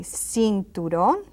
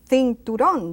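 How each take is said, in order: First: The first sound is an s. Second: The first sound is a th. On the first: This is how it is said outside Spain. "I say cinturón, C is an S sound" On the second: This is how it is said in Spain. "If you go to Spain, they would say cinturón"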